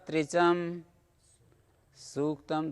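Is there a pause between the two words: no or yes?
yes. A short pause separates the two words. The words are read as separate, unjoined forms. "थोड़ा विराम देकर बोलना पड़ेगा"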